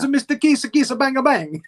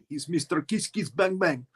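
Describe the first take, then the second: First: A strong put-on foreign accent is used. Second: A weak put-on foreign accent is used. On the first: The speaker calls it right. "That's better" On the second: The speaker calls it wrong. "That's not very Russian the way I did it"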